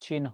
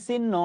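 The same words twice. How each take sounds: First: "চিহ্ন" said as chin-ho; correct pronunciation. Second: "চিহ্ন" said as sin-no, no h; common mispronunciation. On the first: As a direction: sound a clear ho ending "চিহ্ন". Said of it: "বাস্তবে উচ্চারণ হচ্ছে". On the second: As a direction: double the n in "চিহ্ন", drop the h. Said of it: "আমরা বলি চিহ্ন". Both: Shown as a demonstration.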